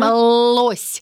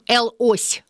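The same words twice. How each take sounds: First: The first letter is spoken as a bare 'l' sound. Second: The first letter is spoken as its name 'el'. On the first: The speaker calls it right. "мы говорим «л-ось»" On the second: The speaker calls it wrong. "мы не говорим «л-ось»"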